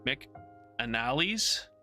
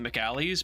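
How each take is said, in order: First: An n sound follows the 'Mc' part. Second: No n sound follows the 'Mc' part. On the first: The speaker calls it right. "but it's Mc McAnally's. There's an N" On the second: The speaker calls it wrong. "I always mispronounce it too. I want to call it McAlley's"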